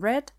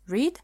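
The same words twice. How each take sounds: First: The vowel is short, rhyming with 'bed'. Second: The vowel is long, rhyming with 'need'. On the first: It is the past participle of the verb. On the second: It is the present form of the verb.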